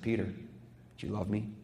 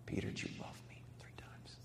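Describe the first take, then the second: First: Hushed. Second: A soft breath of a whisper; Jesus whispering his question to Peter. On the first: Jesus questioning Peter, quoted. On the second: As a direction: whisper it, tender and searching. Jesus asks a third time. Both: Acted.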